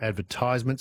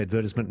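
First: "advertisement" said the way the texter rejects; disliked pronunciation of advertisement. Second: "advertisement" said the way the texter prefers; preferred pronunciation of advertisement. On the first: Host voicing a texter's complaint, disliked pronunciation of "advertisement". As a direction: give "advertisement" in the objected-to pronunciation. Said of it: "not advertisement".

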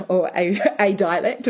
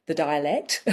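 First: "a" stressed as a full AY. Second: Said in the usual way. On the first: Real, not acted. Correcting herself on learning one dialect, stress on "a". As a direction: lean on "a", said AY, to correct "the".

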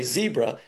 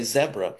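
First: "zebra" with a long ee, ZEE-bruh; American pronunciation of zebra. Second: "zebra" with a short e, ZEB-ruh; South African pronunciation of zebra. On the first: Caller showing how his own people say it, "zebra" as ZEE-bruh. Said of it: "we don't say it properly". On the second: Caller quoting South Africans' correction, "zebra" as ZEB-ruh. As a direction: say "zebra" as ZEB-ruh, first vowel as in bed. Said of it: "the South Africans tell us". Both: Shown as a demonstration.

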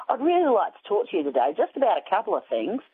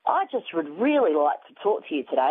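First: A hint of a chatty Australian accent, a touch higher and quicker; mock Australian telemarketer, lightly voiced. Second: Said in the usual way. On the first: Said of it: "he had this Australian accent". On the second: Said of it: "And he said".

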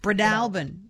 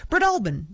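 First: Breadalbane as brə-DAL-bən, short A in DAL; corrected pronunciation. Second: Breadalbane as brə-DAHL-bən, pitched high; broad AH in the middle of Breadalbane; too hoity-toity. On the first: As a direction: stress DAL in Breadalbane, with an open A as in "pal". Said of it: "Yeah, no, that felt better". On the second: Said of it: "The other one felt too hoity-toity". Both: Shown as a demonstration.

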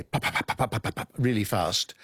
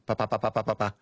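First: "pa" with a strong puff of air; aspirated pa. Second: "pa" with no puff of air; unaspirated pa, French style. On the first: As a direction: say "pa" fast with aspiration. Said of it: "it's got a puff of air with it". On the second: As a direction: say "pa" like a French speaker, no breath. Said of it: "without the aspiration". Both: Shown as a demonstration.

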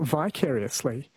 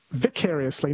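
First: "vicariously" with a long i, vy-CARE-ee-us-lee; first syllable of "vicariously" rhymes with "eye"; long-i pronunciation. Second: "vicariously" with a short i, vik-AIR-ee-us-lee; first syllable of "vicariously" rhymes with "pick"; short-i pronunciation. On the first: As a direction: say "vicariously" opening like "vie". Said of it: "not vicariously". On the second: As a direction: say "vicariously" opening like "Vic". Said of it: "someone says it's vicariously, not vicariously". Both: Shown as a demonstration.

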